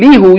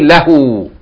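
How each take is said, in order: First: The first vowel is an 'i' sound. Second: The first vowel is an 'a' sound. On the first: The speaker calls it wrong. "Instead of saying lihu" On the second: The speaker calls it right. "you say lahu"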